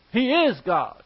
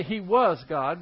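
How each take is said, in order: First: "is" punched loud; stress on is. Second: "was" stressed as the word to reject. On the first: Real, not acted. Preacher correcting was to present tense, emphatic stress on "is". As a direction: declare it firmly, hitting "is" hard. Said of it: "I didn't say was because he still is". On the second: Shown as a demonstration. Preacher showing what you can't say of God, stress on "was". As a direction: lean on "was" to show it is wrong. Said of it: "you can't say".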